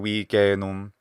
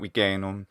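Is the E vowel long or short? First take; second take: long; short. First: The E vowel is held long. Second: The E vowel is said short. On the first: The speaker calls it right. "this E vowel should be uh, longer" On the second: The speaker calls it wrong.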